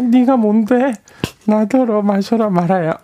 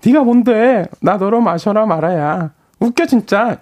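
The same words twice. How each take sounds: First: Put-on high, giggling tipsy girl; squeaky tipsy woman; girl's voice. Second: Put-on high, sassy tipsy girl voice; girl's voice. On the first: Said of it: "여자 목소리를 낼 때". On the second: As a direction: play a tipsy girl scoffing. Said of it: "다시 할게요".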